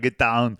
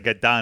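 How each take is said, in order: First: It is said in an Austrian-accented impression. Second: It is said in the speaker's ordinary accent. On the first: "I'd be like, "Ah" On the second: "every time I would say get down"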